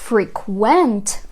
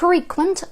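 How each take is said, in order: First: The stress is on the second syllable. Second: The stress is on the first syllable. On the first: It is a verb meaning to visit often. "коли наголос вже на другий склад падає, буде ставати дієсловом" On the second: It is an adjective meaning frequent or common. "Frequent означає який прикметник? Частий"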